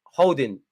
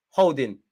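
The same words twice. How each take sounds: The two takes are said the same way.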